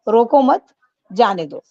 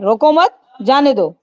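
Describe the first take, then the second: First: It is said in a soft, gentle tone. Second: It is said in a harsh, rough tone. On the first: The words come across as kind. The speaker calls it right. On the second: The words may be taken the wrong way. The speaker calls it wrong.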